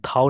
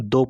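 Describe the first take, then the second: First: The vowel is an 'aw' sound. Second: The vowel is an 'oh' sound. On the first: The speaker calls it wrong. "थाव नहीं पढ़ेंगे" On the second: The speaker calls it right. "दो पढ़ेंगे"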